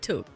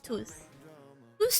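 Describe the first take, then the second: First: The word ends with a hard k sound. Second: The word ends with a soft s sound. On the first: The speaker calls it right. "the U in took is pronounced as U, like, but then it's took" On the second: The speaker calls it wrong. "It's not toos toos. That sounds like fucking couscous"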